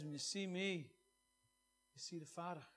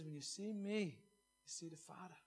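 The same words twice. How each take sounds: First: Said in the usual way. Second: Soft and slow, letting the words sink in; quiet, deliberate reverent restatement; softer, slowed down. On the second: Shown as a demonstration. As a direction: repeat it gently, almost under the breath. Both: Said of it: "Jesus says".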